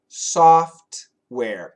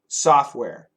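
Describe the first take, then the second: First: It is said carefully with the T sound heard. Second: It is said fast with the T sound dropped.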